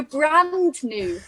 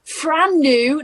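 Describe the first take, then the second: First: "brand new" said slowly with a clear B and D; high, slow, distinct "brand new"; careful correction. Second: "Fran new?" with an F, pitched high; echoed mispronunciation. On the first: Shown as a demonstration. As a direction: correct them, spelling out the sounds of "brand". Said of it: "No, brand new". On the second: Retold or imitated. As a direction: repeat "Fran new" back, higher and louder, as a question. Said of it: "did you say Fran new".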